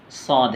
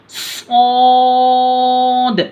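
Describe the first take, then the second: First: Said in the usual way. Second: सौद drawn out very long on a high, loud note; long-stretched letter. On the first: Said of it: "सौद जो है ना से हरफी है". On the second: Shown as a demonstration. Teacher showing how long to pull it, सौद stretched high. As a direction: hold the vowel of सौद for three beats, pitched up. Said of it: "इसको लंबा खींचना है".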